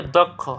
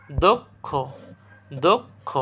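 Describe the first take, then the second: First: Said in the usual way. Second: দক্ষ split as "dok... kho", rising; syllable by syllable. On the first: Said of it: "এরপর দক্ষ". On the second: Shown as a demonstration. Teacher drilling a word for students, split pronunciation. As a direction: stop after "dok" in দক্ষ, lift the "kho". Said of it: "আমি একবার করে বলতেছি".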